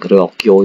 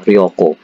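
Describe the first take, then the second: First: The second syllable has a y-glide: kyo. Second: The second syllable is a plain ko. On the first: The speaker calls it wrong. "bukan ryokyo" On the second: The speaker calls it right. "Ini ryoko ya"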